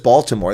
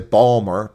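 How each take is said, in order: First: The name is said with all three syllables. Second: The name is shortened to two syllables, Balmer. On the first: This is not how locals say it. "no one says Baltimore" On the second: This is how locals say it. "They say Balmer, B A W L Balmer"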